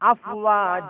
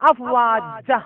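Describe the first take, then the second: First: The final vowel is drawn out and eased off. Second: The final vowel is cut off abruptly. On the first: The speaker calls it right. "ഒരു ഉൾവലിവോട് കൂടിയായിരിക്കണം വഖഫ് ചെയ്യേണ്ടത്" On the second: The speaker calls it wrong. "Sudden brake ഇട്ട് കഴിഞ്ഞാൽ"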